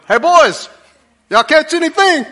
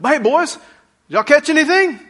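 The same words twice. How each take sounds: First: High, loud call from the shore; teasing call. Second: Put-on high, loud friendly call to the boys; buddy calling out. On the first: Retold or imitated. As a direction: holler to the boys in the boat, ribbing them. Jesus calling from the seashore. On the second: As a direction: call out to your fishing buddies, teasing. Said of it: "a relational term like".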